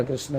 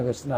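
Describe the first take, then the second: Both takes have the same delivery.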